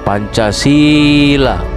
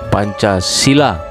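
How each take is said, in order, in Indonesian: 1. Vokal i diucapkan panjang. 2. Vokal i diucapkan pendek. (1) "Pancasila dengan huruf I yang dibaca panjang" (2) "Pancasila dengan huruf I yang dibaca pendek"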